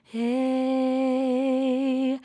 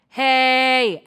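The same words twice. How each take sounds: First: The word is said softly and gently. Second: The word is belted loudly from the chest. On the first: "or softer" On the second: "and that's already belting"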